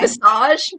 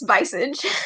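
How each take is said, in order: First: The word is said in a French-like way. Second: The word is said in an English-like way. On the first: The speaker calls it wrong. "I pronounced it ... it looks French" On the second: The speaker calls it right. "but apparently it's visage"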